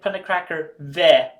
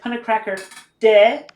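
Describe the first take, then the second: First: The final syllable begins with a V sound. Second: The final syllable begins with a D sound. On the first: The speaker calls it right. "I like pronouncing it Punnicracker ve" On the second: The speaker calls it wrong. "I said Punnicracker de"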